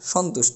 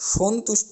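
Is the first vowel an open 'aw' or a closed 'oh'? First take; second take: aw; oh. First: The first vowel is an open aw sound. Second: The first vowel is a closed oh sound. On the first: The speaker calls it right. "অর্থাৎ অ থাকবে উচ্চারণের ক্ষেত্রে" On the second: The speaker calls it wrong. "বলতে পারবো না"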